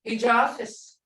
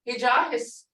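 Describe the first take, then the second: First: The last syllable starts with an f sound. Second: The last syllable starts with an h sound. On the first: This is the form given by the rules. "It's got the fis at the end in rules" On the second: This is the form heard from speakers, maybe a dialect. "I've heard his"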